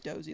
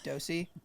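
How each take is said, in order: First: The middle consonant is a z sound. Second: The middle consonant is an s sound. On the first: The speaker calls it right. "but it's pronounced Dozy" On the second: The speaker calls it wrong. "pronounce it like how it's spelled, which makes sense with like the S"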